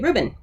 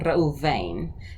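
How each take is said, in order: First: Two syllables, with a 'b' sound. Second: Two syllables, with a 'v' sound. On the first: "or we would say Reuben" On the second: "or you can even just"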